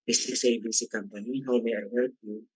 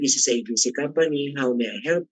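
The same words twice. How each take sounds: First: It is spoken at a low, flat pitch. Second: It is spoken at a raised, brighter pitch. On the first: The greeting sounds lifeless. The speaker calls it wrong. "Walang ano eh" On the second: The greeting sounds pleasant to the caller. The speaker calls it right. "kung medyo itaas mo naman kanto, siguro do, re, mi, nasa mi"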